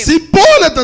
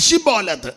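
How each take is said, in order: First: The word begins with a plain s sound. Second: The word begins with a clear sh sound. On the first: The speaker calls it wrong. "അതവന് ശരിയായി ഉച്ചരിപ്പാൻ കഴിയായകൊണ്ട്" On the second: The speaker calls it right. "ശിബ്ബോലെത്ത് എന്ന് സ്ഫുടമായിട്ട് പറയാൻ പറയാം"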